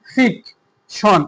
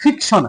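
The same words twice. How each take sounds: First: fiction drawn out very slowly, ফিক set apart; stress on ফিক. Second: Said in the usual way. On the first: Shown as a demonstration. Teacher has pupils try the word, stress on ফিক in fiction. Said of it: "এই যে ফিক, এখানে কিন্তু আমাদের বেশি stress". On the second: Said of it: "তুমি নিজে নিজে উচ্চারণ করে দেখো".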